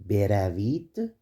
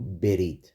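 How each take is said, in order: First: The verb is said in its full form. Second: The verb is said in a shortened form. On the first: "we break the verb beravid" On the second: "turn it into berid"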